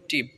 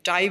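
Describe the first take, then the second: First: The vowel is a short 'i' sound. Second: The vowel is a long 'eye' sound. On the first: The speaker calls it right. "এটা টিপ বলবেন" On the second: The speaker calls it wrong. "টাইপ বলবেন না"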